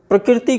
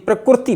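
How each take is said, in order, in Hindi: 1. बीच का अक्षर 'ri' की आवाज़ के साथ बोला जाता है। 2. बीच का अक्षर 'ru' की आवाज़ के साथ बोला जाता है।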